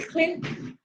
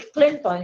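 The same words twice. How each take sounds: First: The last syllable is reduced and obscured. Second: The last syllable is pronounced fully and clearly. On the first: "the last syllable was very much obscured" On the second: "you don't have to say Clinton"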